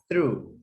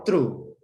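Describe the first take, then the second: First: The word begins with a th sound. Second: The word begins with a t sound. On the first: The speaker calls it right. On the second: The speaker calls it wrong.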